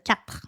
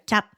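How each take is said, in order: First: The final consonant sound is pronounced. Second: The final consonant sound is dropped.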